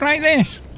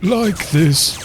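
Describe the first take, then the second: First: The voice is high and piercing. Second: The voice is low and deep. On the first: This is how she sounded before vocal coaching. "she used to speak in a very piercing voice like this" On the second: This is how she sounded after vocal coaching. "learned to speak with a, the lower part of her voice"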